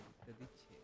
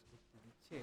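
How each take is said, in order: Both takes have the same delivery.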